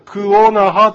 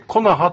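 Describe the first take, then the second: First: The two words are said separately, ku onaha. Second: The two words merge into one word, konaha. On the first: "クオナハというのが" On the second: "猿川流域ではくっついてコナハとなります"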